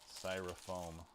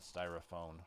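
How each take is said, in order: First: The word ends with an m sound, 'foam'. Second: The word ends with an n sound, 'phone'. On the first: The speaker calls it right. "so it is styrofoam" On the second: The speaker calls it wrong. "not styrophone"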